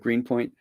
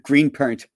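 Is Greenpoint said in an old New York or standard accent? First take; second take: standard; old New York. First: It is said in a standard American accent. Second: It is said in an old New York accent. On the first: "instead of" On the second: "that's the real real um, accent. Uh, you know, old New York accent"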